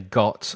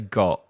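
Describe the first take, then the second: First: The final T is clearly released. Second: The final T is swallowed as a glottal stop. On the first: "I don't say got" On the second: "I say got, It's called the glottal stop"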